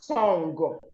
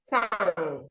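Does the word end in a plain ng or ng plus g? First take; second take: ng plus g; plain ng. First: The word ends in ng plus a g. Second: The word ends in a plain nasal ng. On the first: The speaker calls it wrong. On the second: The speaker calls it right.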